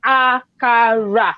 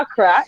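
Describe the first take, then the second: First: Akara very slow, a-ka-ra, each vowel drawn out; akara pronounced fully. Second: Accra in two quick syllables, no middle vowel; Accra, run together. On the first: Teaching coworkers an African food name, akara drawn out. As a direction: spell out "akara" syllable by syllable, slowly. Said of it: "You have to pronounce it that way". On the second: Showing coworkers how not to say akara, squashed to Accra. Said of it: "It's not even just saying Accra". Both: Shown as a demonstration.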